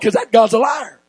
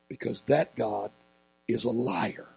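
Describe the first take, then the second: First: It is said loudly with high energy. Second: It is said quietly with calm energy.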